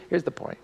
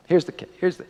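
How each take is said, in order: First: "here's the point" said in an unvoiced, much softer hush. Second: Said in the usual way. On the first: Shown as a demonstration. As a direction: drop to a whisper on "here's the point".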